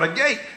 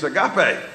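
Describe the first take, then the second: First: The final e is silent, like two syllables. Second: The final e is sounded as an extra syllable. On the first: The speaker calls it wrong. "people still mispronounce our name" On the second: The speaker calls it right. "it's the way it's pronounced"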